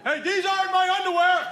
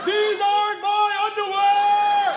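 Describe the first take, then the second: First: Put-on high-pitched outraged teenage son; imitating a son's indignant yell. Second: Put-on very high, loud, drawn-out teen wail; imitating an enraged son bellowing slowly; escalated outraged yell. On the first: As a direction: holler a protest from the other room. Son's protest from other room. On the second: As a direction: stretch the protest into a full holler. Son repeats protest, escalating.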